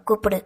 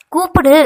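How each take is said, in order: First: Said in the usual way. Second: Sharp raised shout on "கூப்பிடு", high and loud; angry order. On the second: A narrator's reading. He orders her to address his parents, angry shout. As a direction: burst out angrily with "கூப்பிடு". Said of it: "அவன் கோபத்தை உணர்ந்தவள்".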